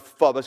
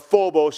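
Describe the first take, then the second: First: The first O is a short vowel. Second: The first O is a long vowel. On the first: "I'll do phobos because I think it's a soft, a short O" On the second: "or phobos if you prefer"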